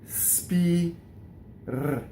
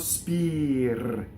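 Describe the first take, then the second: First: The word is split into separate detached parts. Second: The word is said as one smooth unit. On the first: "we're going to practice this staccato first" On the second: "then we link it together"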